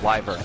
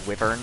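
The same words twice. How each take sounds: First: The word is said the American English way. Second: The word is said the possibly British way. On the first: The speaker calls it right. "In American English, at least, it is pronounced wyvern" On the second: The speaker calls it wrong. "Dragon Age likes to pronounce that word wyvern. As far as I know, that is not correct. It may just be uh, a British pronunciation"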